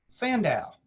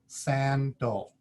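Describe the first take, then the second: First: The second vowel is a full vowel. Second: The second vowel is a weak schwa. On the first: The speaker calls it wrong. "If I read it with the way it looks" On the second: The speaker calls it right. "the second vowel is a schwa"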